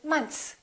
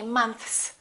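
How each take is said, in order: First: The TH sound is dropped before the S. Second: The TH sound is pronounced before the S. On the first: The speaker calls it right. "They kind of eliminate the T H" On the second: The speaker calls it wrong. "Most Americans don't really say months"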